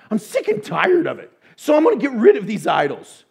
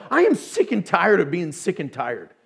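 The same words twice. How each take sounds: First: Fed up, louder. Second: Said in the usual way. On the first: Retold or imitated. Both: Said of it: "we go".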